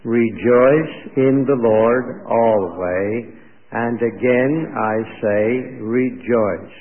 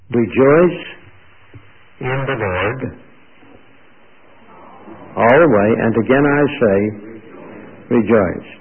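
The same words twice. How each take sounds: First: Slow, drawn-out recitation in even phrases; group recitation. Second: Loud, halting proclamation with long pauses; proclaimed verse. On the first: Shown as a demonstration. Preacher leads the congregation reciting the verse, slow recitation. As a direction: recite it slowly so others can join. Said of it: "recite it with me". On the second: Real, not acted. Preacher quotes Philippians to the congregation, loud proclamation. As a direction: proclaim it loudly, phrase by phrase.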